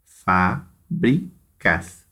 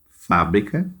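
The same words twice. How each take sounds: First: "Fábricas" very slowly, in three separate beats; syllable by syllable. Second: Said in the usual way. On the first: Shown as a demonstration. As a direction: split "Fábricas" into fá, bri, cas with clear gaps. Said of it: "três sílabas".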